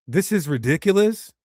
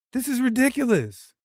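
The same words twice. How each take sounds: First: Said in the usual way. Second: Exasperated. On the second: Shown as a demonstration. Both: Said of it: "just say".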